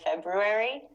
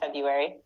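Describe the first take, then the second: First: The first R is lightly pronounced. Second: The first R is dropped entirely. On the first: It is the technically proper form. "we're supposed to put the R in there a little bit, like February" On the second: It is how most people actually say it. "most people like don't say that. We just say Febu, February"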